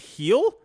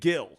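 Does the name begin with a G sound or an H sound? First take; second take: H sound; G sound. First: The name begins with an H sound. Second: The name begins with a hard G sound. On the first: The speaker calls it right. "It's Heel" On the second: The speaker calls it wrong. "I was saying Gil. ... I guess I'm saying it wrong"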